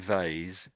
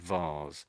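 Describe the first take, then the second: First: It is said in an American accent. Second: It is said in a British accent. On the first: "Americans say vase" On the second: "British say vase"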